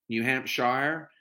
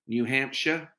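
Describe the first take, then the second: First: "Hampshire" slowly, last syllable rhyming with "fire"; HAMPSHIRE ending "shire". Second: "Hampshire" with a reduced last syllable, "HAMP-shuh"; HAMPSHIRE ending "shuh". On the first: Second try at the state's name, "Hampshire" as slow "HAMP-shire". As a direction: say "Hampshire" with a full "shy-er" ending. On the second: Last try at the state's name, "Hampshire" as "HAMP-shuh". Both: Shown as a demonstration.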